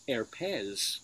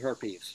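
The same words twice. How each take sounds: First: It is said with a French accent. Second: It is said with a plain English accent.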